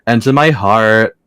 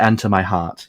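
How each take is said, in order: First: The voice hangs at the end without resolving. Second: The voice falls to a normal close at the end. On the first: "it doesn't like end" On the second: "rather than saying"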